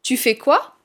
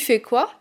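First: The word tu is fully pronounced. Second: The word tu is reduced or dropped. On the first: "Au lieu de" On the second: "qui est supprimé"

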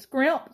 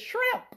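First: The word begins with an sk sound. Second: The word begins with an sh sound. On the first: The speaker calls it right. "No, it's scrimp" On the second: The speaker calls it wrong. "You want to shout and say it's shrimp"

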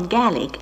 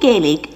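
First: It is pronounced the Scottish way. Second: It is pronounced the usual non-Scottish way.

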